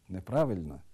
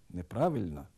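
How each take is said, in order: No difference in how they are said.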